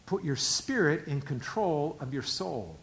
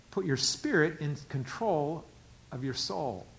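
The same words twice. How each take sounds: The two takes are said the same way.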